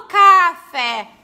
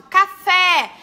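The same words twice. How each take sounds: First: Said in the usual way. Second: Café called out loud, stress on FÉ; teacher shouting a word to find its stress; shouted word. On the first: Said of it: "Eu não falo café". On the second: Shown as a demonstration. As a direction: call Café like shouting across a room. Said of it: "falo uma palavra alto?".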